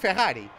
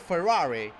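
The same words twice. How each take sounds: First: Ferrari is said with a Portuguese pronunciation. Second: Ferrari is said with a British English pronunciation. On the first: "I say Ferrari because I'm speaking Portuguese" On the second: "Like they say Ferrari for some reason"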